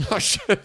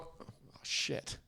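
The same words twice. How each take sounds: First: High, louder laughing outburst; playful high-pitched astonishment; mock amazement, laughing. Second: Breathy, near-whispered reaction; softly whispered mock awe; hushed mock amazement. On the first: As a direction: burst out high through a laugh. Mock awe repeated, now laughing. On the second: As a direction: whisper it under your breath, stunned. Mock awe at friend's Spanish reply.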